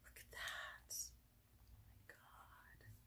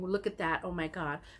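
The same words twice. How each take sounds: First: It is said in a whisper. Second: It is said in a normal voice.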